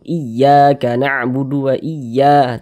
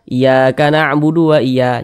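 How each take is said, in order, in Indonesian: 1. Huruf 'y' ganda ditekan dengan nada yang lebih tinggi. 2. Huruf 'y' ganda diucapkan tanpa tekanan tambahan. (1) "tekan seperti itu" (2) "Jangan dibaca"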